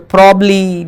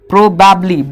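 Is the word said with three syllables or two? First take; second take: two; three. First: The word has two syllables with one b sound. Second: The word has three syllables with both b sounds. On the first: The speaker calls it right. "इसको पढ़ते हैं प्रॉब्ली।" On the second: The speaker calls it wrong. "पर ये पढ़ना गलत है।"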